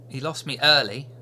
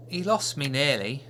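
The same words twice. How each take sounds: First: "early" said as corrected; correct word early. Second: Put-on child says nearly for early; "nearly" said by mistake; mishearing, nearly; wrong word nearly. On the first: Acted. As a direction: fix it to early. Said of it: "Early, nearly".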